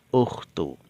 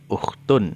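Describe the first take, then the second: First: The word ends on a plain u vowel. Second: The word ends with an added n sound. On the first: The word is the first part of a possessive phrase. "tidak ditanwinkan. Cukup diberi harokat dhammah" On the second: The word stands alone, not in a possessive phrase. "itu ada tanwinnya"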